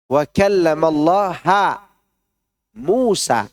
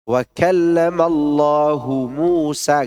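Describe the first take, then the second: First: The word Allah ends with the vowel a. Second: The word Allah ends with the vowel u. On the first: Moses is the one who spoke to God. The speaker calls it wrong. "Mu'tazilah tidak begitu bacanya" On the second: God is the one who spoke to Moses. The speaker calls it right. "Allah itu ditulis dengan dhammah"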